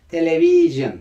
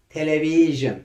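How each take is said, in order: First: The word is said with English pronunciation. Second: The word is said with English pronunciation.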